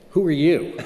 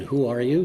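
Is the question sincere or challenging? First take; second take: challenging; sincere. First: It sounds like a hostile, challenging question. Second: It sounds like a sincere, curious question.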